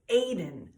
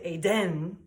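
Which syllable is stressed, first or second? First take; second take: first; second. First: The stress is on the first syllable. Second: The stress is on the second syllable. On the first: The speaker calls it right. "We say the A stronger" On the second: The speaker calls it wrong. "We don't emphasize the den"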